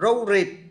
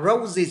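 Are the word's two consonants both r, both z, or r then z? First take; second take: both r; r then z. First: Both consonants are pronounced as r. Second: The first consonant is r, the second z. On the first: The speaker calls it wrong. "hoặc là hai chữ R" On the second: The speaker calls it right. "Chứ nếu đọc là roses thì khó"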